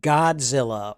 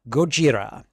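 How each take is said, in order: First: It is said with a 'dz' and an 'l'. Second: It is said with a 'j' and an 'r'. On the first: The speaker calls it wrong. "we mispronounce everything" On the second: The speaker calls it right. "as I believe it is properly pronounced"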